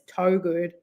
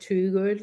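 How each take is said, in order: First: The first syllable sounds like 'toe'. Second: The first syllable sounds like 'too'. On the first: This is how the speaker thinks it should be said. "but it's toe good" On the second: This is how the family says the name. "they pronounce it too good, like T double O"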